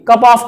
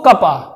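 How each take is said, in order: First: The word 'of' is said fully. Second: The word 'of' shrinks to a weak vowel.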